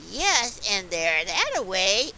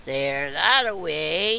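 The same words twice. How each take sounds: First: Loud, emphatic wolf answer; lightly acted storybook wolf; wolf's reply. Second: Loud, slow wolf growl; menacing storybook wolf, drawn out. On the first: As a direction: answer firmly as the wolf, louder. Wolf answers before he growls. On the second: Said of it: "and growled". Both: A narrator's reading.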